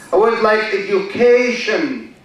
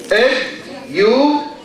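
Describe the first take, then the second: First: Said in the usual way. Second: Education said slowly, syllable by syllable; slow syllable demo. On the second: Shown as a demonstration. Teacher showing students how to count syllables, slow and clear. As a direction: draw out Education so the class can count its syllables. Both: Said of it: "how many syllables".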